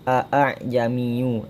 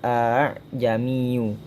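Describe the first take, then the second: First: The second hamza is pronounced fully. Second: The second hamza is softened. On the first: This is how the word is spelled. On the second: This is how the word is actually recited. "karena dia tashil maka dibaca"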